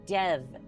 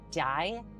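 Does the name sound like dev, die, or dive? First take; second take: dev; die. First: It has a short e vowel. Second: It rhymes with the word dye. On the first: "dev with the Y pronounced silently" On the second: "dye is in like you dye something a different color"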